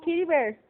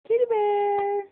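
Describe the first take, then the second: First: Said in the usual way. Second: High, held-out pet-name call; singsong calling. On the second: Real, not acted. Mother calling her distracted toddler by pet name, singsong. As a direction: coax her attention with a sustained high call.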